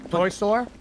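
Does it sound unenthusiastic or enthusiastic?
unenthusiastic. It is said flatly, without enthusiasm.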